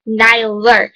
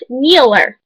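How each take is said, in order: First: The first syllable sounds like 'nye'. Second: The first syllable sounds like 'nee'. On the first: The speaker calls it right. "We call [name] [name]" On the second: The speaker calls it wrong. "not Kneeler"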